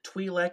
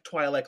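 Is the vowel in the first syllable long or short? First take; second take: short; long. First: The first vowel is a short 'i', as in 'twin'. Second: The first vowel is a long 'eye', as in 'twine'. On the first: "like Twinkie" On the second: "like Twilight"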